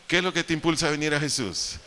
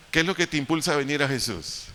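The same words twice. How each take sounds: The two takes are said the same way.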